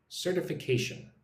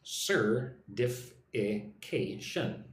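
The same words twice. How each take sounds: First: Certification said quickly, the T softened almost to a D; quick, soft T. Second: Certification stretched out very slowly, syllable by syllable; slow, careful. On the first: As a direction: run Certification together with the T flapped like a D. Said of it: "when I say it quickly, the T is very soft". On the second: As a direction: lay out all five syllables one at a time. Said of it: "look at the word certification". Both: Shown as a demonstration.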